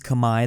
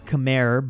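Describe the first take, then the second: First: It is pronounced the way native speakers say it. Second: It is pronounced the way the English spelling suggests. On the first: "technically it is Khmer. That is how they say it" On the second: "I know this is spelled Khmer"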